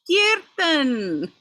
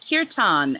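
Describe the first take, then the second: First: It is said with an Indian pronunciation. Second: It is said with an Anglicized pronunciation. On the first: Indian listeners recognized the word. The speaker calls it right. "and then they were like, "Oh" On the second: Indian listeners did not understand it. The speaker calls it wrong. "I had to start saying it properly after after I was in India and I said"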